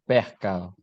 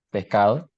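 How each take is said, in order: First: Pescado with the S aspirated like an H; costeño pescado. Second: Said in the usual way. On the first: Shown as a demonstration. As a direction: breathe out the S in pescado. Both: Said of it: "Le S final est aspiré".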